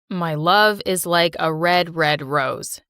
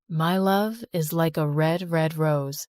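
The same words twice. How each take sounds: First: It is said flatly, like a robot. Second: It is said warmly, with feeling.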